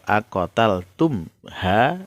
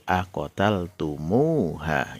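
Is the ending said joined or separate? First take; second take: separate; joined. First: The ending follows the mim with no added vowel. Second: An extra u vowel joins the mim to the ending. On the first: "asalnya dari akotal tum" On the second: "ketika dibaca nyambung, uh, dia menjadi akotal tumuha"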